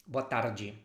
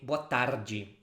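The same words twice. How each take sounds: The two takes are said the same way.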